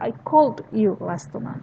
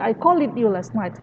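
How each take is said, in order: First: The verb ending is a plain d with no syllable. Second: The verb ending is an extra syllable, like 'id'. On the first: The speaker calls it right. "You say" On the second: The speaker calls it wrong. "You don't say"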